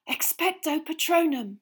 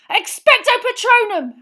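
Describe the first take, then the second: First: High, breath-filled gasp. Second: Very high, full-force yell. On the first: Harry weakening on his knees, gasping. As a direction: gasp out the spell with effort. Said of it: "he gasped". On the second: Harry blocking out the screaming, yelling. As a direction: yell the incantation with everything. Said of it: "Harry yelled". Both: A narrator's reading.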